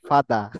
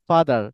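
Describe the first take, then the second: First: The final r sound is dropped. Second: The final r sound is pronounced. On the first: "আরটা উচ্চারণ হবে না British ইংলিশে" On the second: "আমরা বলি যে ফাদার"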